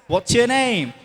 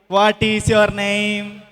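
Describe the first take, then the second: First: It is contracted and said in a British accent. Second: It is said in full, in a non-British accent. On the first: "in a British accent" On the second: "that's a usual way of saying it"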